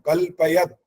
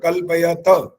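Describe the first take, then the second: First: The word ends in a bare t sound. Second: The word ends with a vowel after t. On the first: The speaker calls it right. "तहलंत है" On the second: The speaker calls it wrong. "कल्पयत ऐसा नहीं बोलना"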